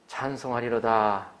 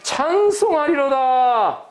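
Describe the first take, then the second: First: It is said flatly, without feeling. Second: It is said joyfully, full of praise.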